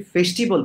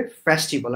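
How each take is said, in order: First: "ফেস্টিভ্যাল" with a closed e, "feh-sti-bol"; "ফেস্টিভ্যাল" with a narrow first vowel; common mispronunciation. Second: "ফেস্টিভ্যাল" with an open first vowel, "fes-ti-vol"; "ফেস্টিভ্যাল" opening on a broad "fæs"; correct pronunciation. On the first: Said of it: "আমরা অনেকে ফেস্টিভ্যাল বলি". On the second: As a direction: model "ফেস্টিভ্যাল" with a wide e in the first syllable. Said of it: "but উচ্চারণটা হবে". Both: Shown as a demonstration.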